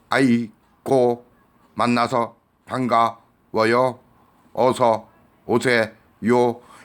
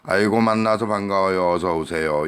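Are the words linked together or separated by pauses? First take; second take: separated; linked. First: Each word is separated by a short break. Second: The words flow together without breaks. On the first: The speaker calls it wrong. "단어별로 끊어서 발음하면 그거 듣는 사람 고문하는 거예요" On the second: The speaker calls it right. "다 붙여서"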